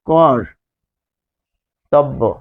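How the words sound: The word is said slowly, pausing after the first syllable.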